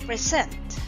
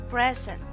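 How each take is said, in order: First: The stress is on the second syllable. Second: The stress is on the first syllable. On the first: It is a verb. "The stressed syllable is sent" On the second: It is a noun meaning a gift. "the stressed syllable is pre, and that makes it a noun"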